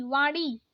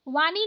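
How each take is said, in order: First: वाणी with curled-tongue ण, near ड़; correct retroflex ण. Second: वाणी with plain न; wrong dental N. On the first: Teacher correcting learners, retroflex वाणी. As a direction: curl back for ण in वाणी. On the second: Teacher showing learners the mistake, dental-N वाणी. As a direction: say वाणी as वानी. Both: Shown as a demonstration. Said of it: "नहीं".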